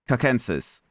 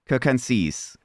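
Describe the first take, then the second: First: The first C sounds like K. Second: The same.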